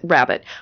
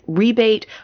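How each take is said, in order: First: It is pronounced like the word 'rabbit'. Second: It is pronounced like the word 'rebate'. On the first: This is the way the speaker was taught. "I've always been taught to pronounce it rabbet" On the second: Some other people say it this way. "some people pronounce it rebate"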